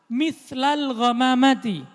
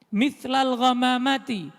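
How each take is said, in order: Both takes have the same delivery.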